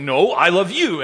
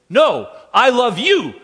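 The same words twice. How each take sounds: First: Louder playful one-upping; mock-childish counter; a hint of a competitive two-year-old; competitive dad. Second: Put-on high, loud, slow toddler insisting; mock toddler outdoing her father. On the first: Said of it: "I feel like saying". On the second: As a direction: play a stubborn two-year-old topping dad. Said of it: "she'll say".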